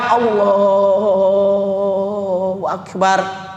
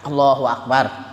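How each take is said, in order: First: It is said slowly and drawn out. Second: It is said quickly and short.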